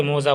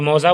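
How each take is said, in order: First: "मौजा" with a long "o", as mo-za; variant pronunciation. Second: "मौजा" with an open "au" vowel; variant pronunciation. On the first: Teacher noting that others say it this way, o-vowel pronunciation. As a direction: say "मौजा" with "o" in the first syllable. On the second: Teacher noting that some people say it this way, au-vowel pronunciation. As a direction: say "मौजा" as mau-za. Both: Shown as a demonstration. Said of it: "कोई मौजा बोलता है".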